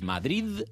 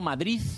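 First: The word ends with a d sound. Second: The word ends with a z sound. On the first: The speaker calls it right. "con D" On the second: The speaker calls it wrong. "con Z"

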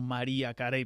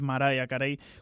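First: The name is said with Spanish pronunciation. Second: The name is said with American pronunciation. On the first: This is how people in Spain say it. "Muchos aquí en España seguramente la conocéis como" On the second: This is how people in the singer's home country say it. "allí es"

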